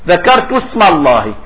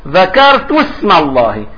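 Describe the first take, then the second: No difference in how they are said.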